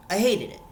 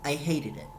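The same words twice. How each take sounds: First: Hated punched higher and louder; stress on hated. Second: Said in the usual way. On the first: Real, not acted. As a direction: hit hated hard, fed up. Repeats her verdict with rising force.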